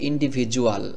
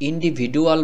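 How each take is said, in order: First: The middle consonant is a 'j' sound. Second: The middle consonant is a plain 'd' sound. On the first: The speaker calls it right. "এই শব্দটি এভাবে উচ্চারণ করতে হবে" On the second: The speaker calls it wrong. "এখানে যদি আপনি ইন্ডিভিডুয়াল বলেন তাহলে হবে না"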